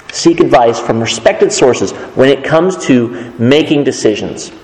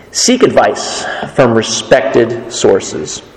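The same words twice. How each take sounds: First: Said in the usual way. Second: Slow, weighty first reading of the point; slow emphasis. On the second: Shown as a demonstration. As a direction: lay the rule down slowly.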